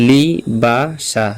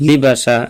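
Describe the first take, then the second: First: "লি বা সা" slowly, with a gap after each syllable; teacher carefully spacing out "লি বা সা" to follow along. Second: Said in the usual way. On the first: Shown as a demonstration. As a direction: sound out "লি", "বা", "সা" one at a time. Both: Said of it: "আমি ধীরস্থিরভাবে বা আস্তে আস্তে বলি".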